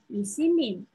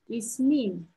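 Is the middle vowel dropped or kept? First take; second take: kept; dropped. First: The middle vowel is kept in the word. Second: The middle vowel is dropped from the word. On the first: The speaker calls it wrong. "Не Исимин. Это неправильно" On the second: The speaker calls it right. "из слова выпадает. И получается Исмин"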